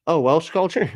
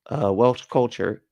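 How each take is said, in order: First: Higher, brighter surprised "Welsh culture?"; pleasantly surprised. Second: Said in the usual way. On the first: Real, not acted. Streamer reacting to a chatter's Welsh roots, surprised.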